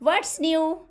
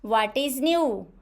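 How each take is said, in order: First: 'What is' is contracted into one syllable. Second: 'What is' is said as two full words. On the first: The speaker calls it right. "Like this" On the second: The speaker calls it wrong. "Not what is"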